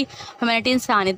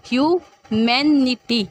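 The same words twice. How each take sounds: First: Said in the usual way. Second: ह्यूमैनिटी said very slowly, each syllable spelled out; slow pronunciation demo. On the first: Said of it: "देखें". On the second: Shown as a demonstration. Teacher showing students how to say ह्यूमैनिटी, slow and clear. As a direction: draw out ह्यूमैनिटी like a teacher at the board. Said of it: "हम इस तरह से इसको pronounce करते हैं".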